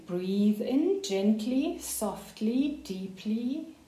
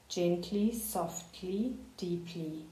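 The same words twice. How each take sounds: First: Said in the usual way. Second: Each word softer until barely there; fading to a hush. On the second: Shown as a demonstration. Coach easing a student into calm, fading to a hush. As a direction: let the voice fade away softly.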